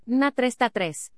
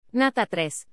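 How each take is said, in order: First: Slow, "tres" drawn out long at the end; lengthened final syllable. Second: Said in the usual way. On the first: Shown as a demonstration. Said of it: "las sílabas finales son largas". (alargando la sílaba final "tres") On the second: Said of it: "En la representación fonológica no hay distinción".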